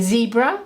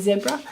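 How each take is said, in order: First: The word is said with an American pronunciation. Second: The word is said with an Australian pronunciation. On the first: "In America, you say zebra" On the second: "here in Australia, we say zebra"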